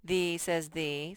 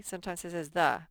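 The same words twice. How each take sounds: First: "the" said slowly with a long ee vowel; "the" as thee. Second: Quick, with "the" said short as thuh. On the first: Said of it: "sometimes the says the". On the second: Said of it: "sometimes the says". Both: Shown as a demonstration.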